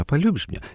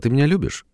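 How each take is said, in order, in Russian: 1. Вопрос задан легко и игриво. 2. Вопрос задан серьёзно и с сомнением. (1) "в той игривой и ненавязчивой манере" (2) "он серьезно спрашивает, потому что он сомневается"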